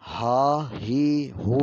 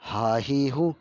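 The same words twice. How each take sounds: First: ہا ہی ہو pulled out long; wrong way: ہا ہی ہو drawn out; wrongly stretched vowels. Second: ہا ہی ہو short and relaxed; right way: short ہا ہی ہو; correct short vowels. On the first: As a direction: stretch ہا ہی ہو slowly on purpose. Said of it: "یہ غلط طریقہ ہے". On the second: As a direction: say ہا ہی ہو crisp, unstretched. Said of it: "صحیح طریقہ کیا ہے پڑھنے کا؟". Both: Shown as a demonstration.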